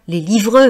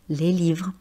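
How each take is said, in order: First: The final e is sounded as a strong vowel. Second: The final e is nearly silent. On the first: The speaker calls it wrong. "je ne dis pas le son E de manière forte" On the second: The speaker calls it right. "on peut considérer que le E est muet"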